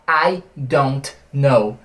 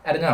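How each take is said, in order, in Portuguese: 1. Cada palavra é dita completa e separadamente. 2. As palavras são ditas rápido e emendadas. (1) "Ele não vai falar I don't know" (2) "o nativo fala muito rápido isso daqui"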